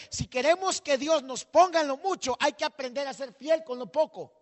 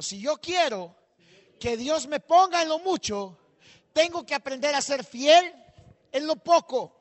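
First: Predicación fuerte. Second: "Si yo quiero que Dios me ponga en lo mucho" marcado y pausado, subiendo en "fiel"; frase para repetir. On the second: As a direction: dictar la frase por partes para que la repitan. (pastor que hace repetir la frase a la congregación, pausado y fuerte) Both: Shown as a demonstration. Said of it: "Diga conmigo".

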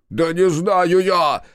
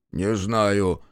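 First: High, loud, drawn-out shout; high-pitched, stretched outburst; hysterical yell. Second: Said in the usual way. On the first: A narrator's reading. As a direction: yell it in helpless exasperation. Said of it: "заорал Макар".

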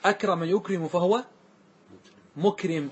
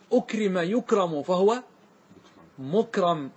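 First: "أكرم يكرم" as akrama yukrimu, then "مكرم" as mukrim; active participle vowels. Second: "أكرم يكرم" as ukrima yukramu, then "مكرم" as mukram; passive participle vowels. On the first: Teacher giving the active participle, "مكرم" said mukrim. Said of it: "واسم الفاعل". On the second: Teacher giving the passive participle, "مكرم" said mukram. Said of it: "واسم المفعول". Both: Shown as a demonstration.

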